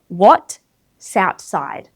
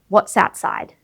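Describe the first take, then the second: First: There is a gap between the two words. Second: The words flow together without any gap. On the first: The speaker calls it wrong. "we don't want a gap there" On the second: The speaker calls it right. "teach your brain that it's one word, multi-syllables, to have that even flow"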